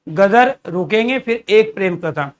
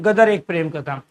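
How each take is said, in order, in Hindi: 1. पहले शब्द के बाद विराम है। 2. यह बिना रुके एक साथ बोला जाता है। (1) "गदर रुकेंगे फिर" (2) "ऐसे नहीं बोलेंगे"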